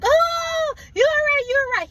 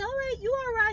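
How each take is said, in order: First: It is said in a panicked, anxious way. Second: It is said in a calm, steady way.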